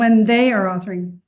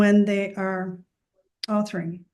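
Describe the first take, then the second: First: The phrase is said with strong emphasis. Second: The phrase is said plainly, without special emphasis.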